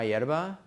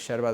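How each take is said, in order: First: The word begins with a y sound. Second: The word begins without a y sound.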